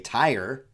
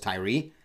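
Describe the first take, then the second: First: The name ends without a final ee sound. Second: The name ends with a final ee sound. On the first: The speaker calls it wrong. "If you read it, you might say Tyre" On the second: The speaker calls it right. "Didn't know it was Tyree"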